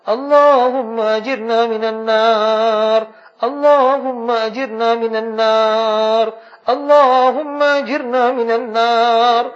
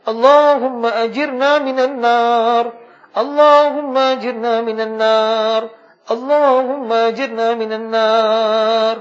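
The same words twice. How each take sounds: The two takes are said the same way.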